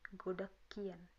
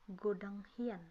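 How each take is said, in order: First: It is said with 'k' then 'k', sounds merged. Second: It is said as written, with 'ng' then 'h'. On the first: "bisa dibaca godak kien" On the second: "baca sesuai dengan yang tertulis"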